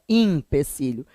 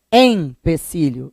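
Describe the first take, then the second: First: "empecilho" as "impecilho", softer; pronúncia errada com I. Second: "empecilho" with a clear, separated EM; pronúncia com E. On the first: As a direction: open "empecilho" on IM. ("empecilho" com I inicial: "impecilho") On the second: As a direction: stress EM opening "empecilho". ("empecilho" com E nasal destacado) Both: Shown as a demonstration. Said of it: "é com E".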